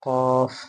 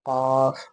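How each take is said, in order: The two takes are said the same way.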